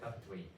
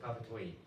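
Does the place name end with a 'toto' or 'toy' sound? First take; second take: toy; toy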